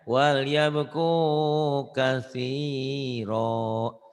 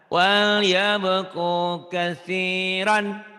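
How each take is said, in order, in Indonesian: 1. Kata terakhir berakhir dengan vokal panjang. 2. Kata terakhir berakhir dengan bunyi n pendek. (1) "Kalau dihentikan" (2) "Jangan ditahan"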